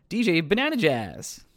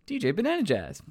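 First: Savoured name. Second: Savoured again. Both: Shown as a demonstration. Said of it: "That's so fun to say".

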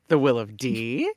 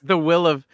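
First: "D?" lifted in a questioning upward inflection; sly rising "D?" to land the joke. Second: Said in the usual way. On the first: Shown as a demonstration. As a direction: tip "D?" up at the end, lower and softer. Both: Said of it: "upward inflection on the D that sells it".

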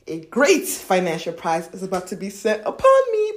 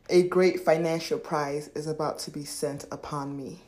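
First: GREAT punched louder, lively movement through the line; energized affirmation. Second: Said in the usual way. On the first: Shown as a demonstration. Coach putting movement into an affirmation, energized stress on GREAT. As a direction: hit "great" hard and swing the rest. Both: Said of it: "Put some movement into that".

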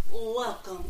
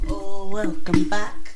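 First: Said in the usual way. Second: Loud welcome. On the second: Real, not acted. Podcast host greeting loudly.

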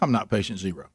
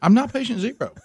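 First: Muttered denial. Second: Pitched up, whining I'm not patient zero; whiny high denial. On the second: Husband mocking himself to wife, whiny high protest. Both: Shown as a demonstration. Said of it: "I'm having to now say to my own wife".

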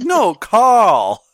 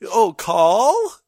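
First: Carl with no R, louder, laughing through it; insistent British Carl. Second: Carl with no R, asked back with a rising tune; confused echo of Carl. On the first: Carl correcting a puzzled foreigner, loud and laughing. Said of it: "And he's like". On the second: Foreigner checking the name back, puzzled. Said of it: "And they're like". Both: Retold or imitated.

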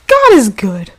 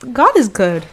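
First: Louder, emphatic God is good; emphatic louder repeat. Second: Said in the usual way. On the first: Real, not acted. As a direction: say it again, louder.

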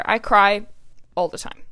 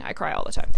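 First: Said in the usual way. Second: Whispered aside. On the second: Real, not acted. Repeating it as an aside.

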